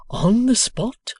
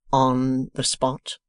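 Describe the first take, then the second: First: High, loud, slow amazed question. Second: Slow, flat confident reply; calm assurance. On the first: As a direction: Boffin amazed at Wegg's claim, high and slow. Boffin asks. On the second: Wegg answers. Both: A narrator's reading.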